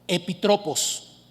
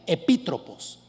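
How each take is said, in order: First: The stress is not on the second syllable. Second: The stress is on the second syllable. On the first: The speaker calls it wrong. "perdónenme" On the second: The speaker calls it right. "lleva acento en la i"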